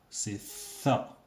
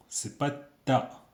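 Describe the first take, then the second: First: "ça" said as a breathy th; "ça" unvoiced, tongue between the teeth; th sound. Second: "ta" said with a hard t, no lisp; "ta" with a clipped t; wrong t sound. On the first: Teacher giving students the right "ça" as a th. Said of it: "Vous entendez ça". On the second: Teacher contrasting the wrong "ta" sound for the class. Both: Shown as a demonstration.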